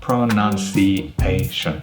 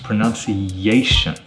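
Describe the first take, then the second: First: The E and A sounds are separated. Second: A y sound links the E and A. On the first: The speaker calls it wrong. "they separate those two sounds" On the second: The speaker calls it right. "we actually add a y sound and it becomes"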